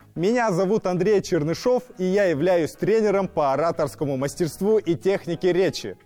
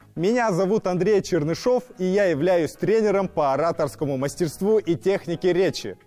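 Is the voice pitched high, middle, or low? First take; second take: high; high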